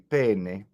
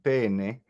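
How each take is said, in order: First: The first vowel is closed. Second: The first vowel is closed.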